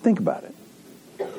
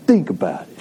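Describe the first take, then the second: First: Said in the usual way. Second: Put-on playful Boston accent. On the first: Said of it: "I don't know why I wanna say that with a Boston accent". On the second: Preacher prompting the congregation's last words, in a Boston accent. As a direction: say it like a Bostonian, for fun. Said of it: "say that with a Boston accent".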